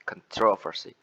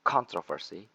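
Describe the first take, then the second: First: "controversy" with TRO punched, first syllable reduced; stress on second syllable. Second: "controversy" with the stress up front on CON; stress on first syllable. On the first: Presenter showing the second way to say controversy, stress on the second syllable. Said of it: "The second one is". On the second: Presenter showing the first way to say controversy, stress on the first syllable. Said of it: "The first one is". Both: Shown as a demonstration.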